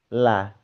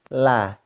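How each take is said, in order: First: The L is light with a bright a vowel. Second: The same.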